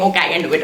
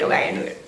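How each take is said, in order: First: Said in the usual way. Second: Unvoiced, self-encouraging whisper; whispered pep talk. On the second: Real, not acted. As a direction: whisper it to yourself.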